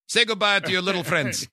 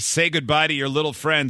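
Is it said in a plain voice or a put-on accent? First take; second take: put-on accent; plain voice. First: It is said in a put-on movie accent. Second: It is said in a plain, normal voice.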